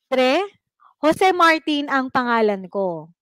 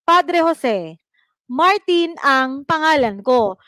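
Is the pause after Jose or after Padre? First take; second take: after Padre; after Jose. First: There is a pause right after the word Padre. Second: There is a pause right after the word Jose. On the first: The speaker tells a priest his name is Jose Martin. "'Di ba nandun yung kuwit kay Padre" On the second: The speaker tells Father Jose his name is Martin. "pansinin niyo kung nasaan na yung antala niya"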